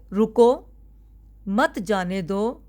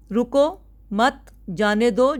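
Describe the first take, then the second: First: रुको set apart by a long pause, then मत जाने दो as one slow phrase; pause after रुको. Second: रुको, मत cut off from जाने दो by a pause after मत. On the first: Teacher shows students how a comma changes meaning, pause after रुको. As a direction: break after रुको, keep मत joined to जाने दो. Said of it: "अगर मैं रुको के बाद कोमा लगा देती हूँ". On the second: Teacher gives students the second reading of the sentence, pause after मत. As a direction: break after मत, then release जाने दो on its own. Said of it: "अगर मैं कहती हूँ कि रोको मत". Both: Shown as a demonstration.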